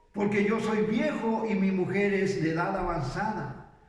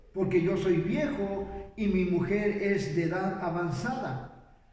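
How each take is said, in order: No difference in how they are said.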